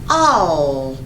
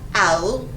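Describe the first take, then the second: First: The word ends with a clear L sound. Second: The final L is replaced by a vowel. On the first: The speaker calls it right. "it is all" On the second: The speaker calls it wrong. "This word is not ow"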